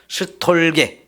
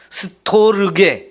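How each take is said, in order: First: The word has three syllables, with 'reu' merged away. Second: The word has four syllables, with a separate 'reu'. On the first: This is how people commonly shorten it. "줄여서 자꾸 말합니다. 그래서 스톨게 이렇게 표현하거든요" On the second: This is the original pronunciation. "원래 발음으로는 스토르게 이렇게 해야 정상적이지만"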